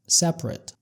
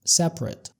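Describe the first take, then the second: First: It is pronounced the way the adjective is. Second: The same.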